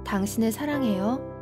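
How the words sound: The voice rises at the end like a question. It sounds like a completely different meaning. "의문 부호를 붙이면"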